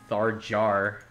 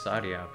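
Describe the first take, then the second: First: The name begins with a 'th' sound. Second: The name begins with an 's' sound. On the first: This is the English way to say the name. "in English, it's like Tharjar" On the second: This is the Japanese way to say the name. "In Japanese, it's Saria"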